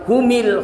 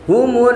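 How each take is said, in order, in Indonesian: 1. M diikuti vokal i. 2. M diikuti vokal u. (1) "atau humil" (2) "harus dihidupkan dengan dhamma"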